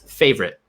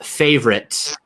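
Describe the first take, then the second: First: The final T is cut off, unreleased. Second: The final T is fully released. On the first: "the T again it gets sort of cut off" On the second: "instead of favorite"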